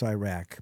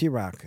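First: "Iraq" said EYE-rack, long I and flat short a; "Iraq" with a long I and a flat a, like in Brooklyn. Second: "Iraq" said ih-ROCK, short i and broad a; "Iraq" with a short i and an open ah; standard Iraq. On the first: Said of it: "If you're in Brooklyn". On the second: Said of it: "But if". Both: Shown as a demonstration.

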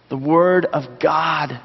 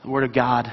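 First: The Word of God drawn out slowly, each word weighted; slow emphatic repeat. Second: Said in the usual way. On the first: Shown as a demonstration. Pastor repeats the answer for emphasis, slow and weighty. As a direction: land it slowly and firmly. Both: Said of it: "what is pure spiritual milk".

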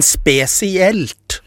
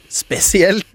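First: "spesielt" drawn out very slowly, syllable by syllable; misplaced stress. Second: "spesielt" retried higher and quicker, stress unsure; misplaced stress. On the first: Storyteller tripping over where the weight falls, misplaced stress on slow "spesielt". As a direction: stretch "spesielt" slowly, feeling for the right stress. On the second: Storyteller retrying a word that came out wrong, higher "spesielt" with unsure stress. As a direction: say "spesielt" in one higher, shorter go. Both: Real, not acted. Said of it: "her hører jeg ikke klarer helt å legge vekt riktig sted".

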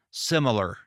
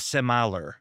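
First: "similar" said SIM-uh-ler; own accented pronunciation. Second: "similar" said sim-EYE-ler; corrected pronunciation. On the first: Host quoting the word viewers objected to, "similar" as SIM-uh-ler. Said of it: "I said similar instead of similar". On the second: Host quoting what viewers supposedly wanted, "similar" as sim-EYE-ler. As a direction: stretch the middle of "similar" into EYE. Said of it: "instead of similar". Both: Shown as a demonstration.

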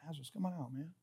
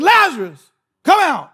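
First: Very soft, low, offhand murmur; casual low mumble. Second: Loud, higher-pitched commanding call. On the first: Preacher showing how Jesus could have said it, casual and hushed. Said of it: "He could have said". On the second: Preacher showing how Jesus summoned Lazarus, in a loud voice. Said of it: "said it in a loud voice". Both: Acted.

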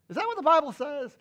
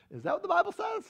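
First: Fast, firm repeat stressing what; preacher repeating to the congregation, pressing; pressing question. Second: High-pitched disbelieving cry, Bible rising; preacher to the congregation, shrill disbelief; incredulous high question. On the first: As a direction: drive the question home at speed. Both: Real, not acted.

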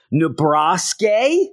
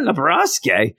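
First: Nebraska drawn out slowly, ending in a high rise; odd pronunciation. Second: Nebraska said again with a falling tune, nuh-BRAHS-kay; odd pronunciation. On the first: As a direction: Nebraska said slow and questioning, nup-BRAHS-kay. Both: Shown as a demonstration. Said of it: "Is that how you say it?".

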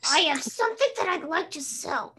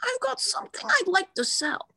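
First: Higher and louder Marge line, laughing into it; Marge Simpson impression. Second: Marge Simpson impression. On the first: Second take of the Marge line for friends. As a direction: another stab at Marge's sales line. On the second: Friend taking a turn at the Marge line. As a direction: push the voice way up for Marge. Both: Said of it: "now is Marge Simpson".

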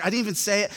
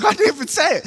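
First: Said in the usual way. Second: High, louder whiny denial; a kid's high-pitched indignant protest. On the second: Retold or imitated. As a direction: squeak it out, offended you're blamed at all. Classmate protests being blamed.

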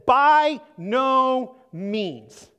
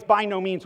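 First: Slow, heavy and louder, each word weighed: "By no means"; emphatic. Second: Said in the usual way. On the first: Shown as a demonstration. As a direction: drag out "By no means" with full weight. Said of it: "emphatic response". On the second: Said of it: "Paul uses this phrase".

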